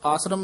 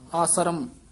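First: The word is said quickly, run together. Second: The word is slightly drawn out and lengthened. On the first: The speaker calls it wrong. "ਇਕੱਠਾ ਹੀ ਚਾਲ ਅਨੁਸਾਰ ਆਸਰਮ ਨਹੀਂ ਕਹਿਣਾ" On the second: The speaker calls it right. "ਥੋੜਾ ਜਿਹਾ ਲਮਕਾ ਕੇ ਹੀ ਆਸਰਮ"

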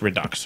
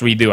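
First: The word ends with a final 'ks' sound. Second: The word ends without a final 'ks' sound. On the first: "but apparently it's Redux" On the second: "I think the X should be silent"

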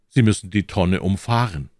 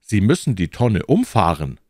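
First: The stress falls on the second syllable of umfahren. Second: The stress falls on the first syllable of umfahren. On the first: The car drives around the barrel. "Mein Auto soll um die Tonne herumfahren" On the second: The car knocks the barrel over. "Wenn ich das an dieser Stelle anders betone"

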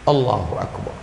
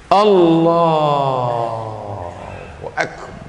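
First: The phrase is said short and quick. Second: The phrase is drawn out long.

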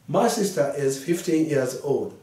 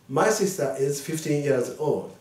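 Both takes have the same delivery.

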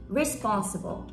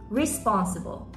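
First: The stress is on the first syllable. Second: The stress is on the first syllable.

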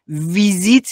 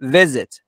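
First: The vowels are long, like Persian ee. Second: Both vowels are short i sounds. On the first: The speaker calls it wrong. "ویزیت نیستا" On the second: The speaker calls it right. "دوتاشون هم ای کوتاهه"

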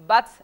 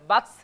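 No difference in how they are said.

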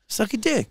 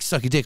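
First: It sounds warm and encouraging. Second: It sounds like a hostile insult.

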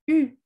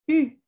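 First: A front 'ee' vowel with rounded lips. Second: The same.

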